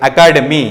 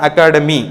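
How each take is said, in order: No difference in how they are said.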